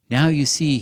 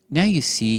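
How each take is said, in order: First: Loud, breathless excitement; out of breath. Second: High, eager cry of triumph; excited boy. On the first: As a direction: gasp it out, breathless. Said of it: "all out of breath". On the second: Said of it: "he said". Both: A narrator's reading.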